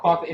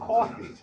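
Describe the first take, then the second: First: Coffee is said without a New York accent. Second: Coffee is said with a New York accent. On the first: This is how the mother said it. The speaker calls it wrong. "she was saying coffee wrong" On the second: This is how the New York coworker said it. The speaker calls it right. "no, it's pronounced coffee"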